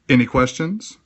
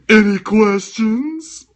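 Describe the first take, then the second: First: It is said in a normal speaking voice. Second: It is said in a put-on character voice. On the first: "At least I didn't do the voice" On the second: "let David Pumpkins say that"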